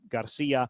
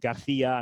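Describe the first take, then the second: First: The C is said without a th sound. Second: The C is said with a th sound. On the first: "instead of" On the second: "Or in Spain, the th sound ... for a C sound"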